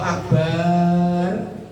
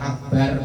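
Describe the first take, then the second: First: The vowel after b is drawn out long. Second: The vowel after b is short. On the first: It means something else, the bottom of a container. The speaker calls it wrong. "kalau baknya dibaca panjang" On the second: It means the greatest. The speaker calls it right. "baknya pendek artinya benar"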